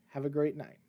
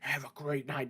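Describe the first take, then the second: First: It is said in an ordinary speaking voice. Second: It is said in a put-on villain voice. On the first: "Wow, that was corny" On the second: "That doesn't sound like Ghostface at all"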